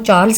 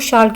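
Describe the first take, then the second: First: It begins with a 'ch' sound, ending 'rls'. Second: It begins with a 'sh' sound, ending 'rl'. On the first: This is not how French speakers say it. "French लोग जो हैं वो चार्ल्स नहीं कहते" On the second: This is how French speakers say it. "वो शार्ल कहते हैं"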